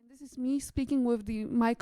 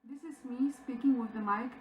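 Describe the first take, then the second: First: The voice is heard with no background sound. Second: The voice has background sound behind it. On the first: "with the mic only" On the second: "with the mic and with the background sound"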